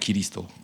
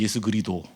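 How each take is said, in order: First: The word is said as giriseudo. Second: The word is said as geurido. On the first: "옛날에 발음 틀렸던 게 뭐냐면" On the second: "어떤 목사님은 그리도라 그런 분도 있어요"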